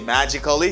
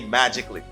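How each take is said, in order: First: The ending is two syllables, like 'ca-lly'. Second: The ending is one syllable, like 'cly'. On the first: The speaker calls it wrong. "Don't say magically" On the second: The speaker calls it right. "say magically"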